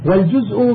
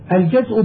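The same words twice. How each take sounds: First: والجزء said "wal-juz'", u after the j; rounded short u in والجزء, then glottal stop; damma on الجزء. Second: الجزء said "al-jaz'", a after the j; fatha on الجزء. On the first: Reader contrasting word forms, والجزء with damma, "wal-juz'". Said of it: "والجزء بضم الجيم". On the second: Reader explaining a lexicon entry, الجزء with fatha, "al-jaz'". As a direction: open short a in الجزء, then glottal stop. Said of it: "الجزء بفتح الجيم". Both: Shown as a demonstration.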